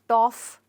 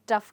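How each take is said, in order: First: The vowel sounds like 'aw' in 'saw'. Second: The vowel sounds like 'uh' in 'cup'. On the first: The speaker calls it wrong. "हम इसको टॉफ नहीं कहेंगे" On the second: The speaker calls it right. "But टफ कहेंगे"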